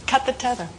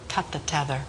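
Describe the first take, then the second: First: Mildly insistent retold command, pitched higher; insist, raising the pitch a little; director's insistent order. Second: Low, hushed retold command; director's tense order. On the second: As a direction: give the order low and quiet. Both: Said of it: "Sidney was going crazy".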